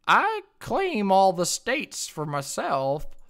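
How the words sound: It is read in a put-on character voice.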